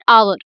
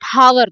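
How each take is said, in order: First: The word starts with a vowel, H silent. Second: The word starts with a pronounced H sound. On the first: The speaker calls it right. "we call it hour" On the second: The speaker calls it wrong. "we do not call it hour"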